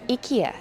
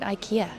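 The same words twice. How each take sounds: First: The name is said with a Swedish pronunciation. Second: The name is said with an English pronunciation.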